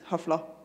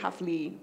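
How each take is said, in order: First: The word ends in an a sound. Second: The word ends in an ee sound. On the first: This is the Modern Standard Arabic form. "if you're speaking modern standard Arabic, it's hafla" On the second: This is the Lebanese dialect form. "if you're a Lebanese dialect speaker, ... becomes e"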